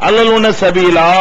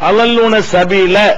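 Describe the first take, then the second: First: The final vowel is lengthened. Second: The final vowel is short. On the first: This keeps the rhyme with the earlier verses. "நெடிலாக சொல்வார்கள்" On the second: This breaks the rhyme with the earlier verses. "சொல்வதற்கு பதிலாக"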